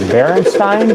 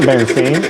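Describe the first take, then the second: First: The last syllable rhymes with Frankenstein. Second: The last syllable rhymes with stain. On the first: The speaker calls it right. "is it pronounced like Frankenstein?" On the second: The speaker calls it wrong. "It's not Berenstain"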